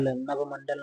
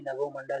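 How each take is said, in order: First: नभमंडल with no o after bh; wrong form. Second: नभोमंडल with o after bh; correct form. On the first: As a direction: say nabh-mandal for नभमंडल. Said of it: "नहीं". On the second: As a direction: say na-bho-mandal for नभोमंडल. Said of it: "शुद्ध रूप होता है इसका". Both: Shown as a demonstration.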